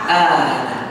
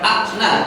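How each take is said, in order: First: The first vowel is lengthened without a stop. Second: A glottal stop follows the first vowel. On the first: The speaker calls it right. "tapi ana" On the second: The speaker calls it wrong. "bukan akna"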